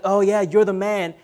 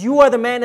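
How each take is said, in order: First: Offhand praise, like cheering a buddy; light, casual "you're the man"; casual compliment. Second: "you are the man" said firmly, leaning on "are"; emphatic, deliberate "you are the man"; pointed accusation. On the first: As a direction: toss it off as a friendly compliment. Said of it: "he doesn't necessarily mean like". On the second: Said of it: "he means you are the man as in you are that guy". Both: Acted.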